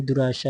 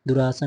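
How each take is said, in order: First: दुराशा with sh; correct sibilant. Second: दुराशा said with s, as duraasa; plain s in दुराशा; wrong sibilant. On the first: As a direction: say du-raa-shaa for दुराशा. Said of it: "ऐसे लिखा जाएगा शुद्ध रूप से". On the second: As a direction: say du-raa-saa for दुराशा. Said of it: "नहीं". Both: Shown as a demonstration.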